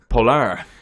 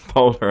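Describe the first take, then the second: First: It is said with a Spanish accent. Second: It is said with a plain English accent. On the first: "we're not just throwing a Spanish accent on that from fun" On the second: "I'm going to say it properly"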